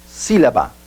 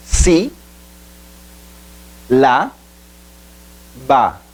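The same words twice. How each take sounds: First: Said in the usual way. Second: "Si, la, ba" split by long pauses; syllable by syllable. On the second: Shown as a demonstration. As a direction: say "Si", "la", "ba" as three isolated syllables. ("Si, la, ba" sílaba por sílaba, com pausas longas) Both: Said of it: "Separação silábica".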